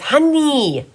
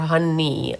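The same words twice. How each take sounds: First: The final syllable is stressed and drawn out. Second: The final syllable is light and unstressed. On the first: It names the new cat, not the first one. "he really pronounces the knee at the end" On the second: It names the first cat. "like the regular"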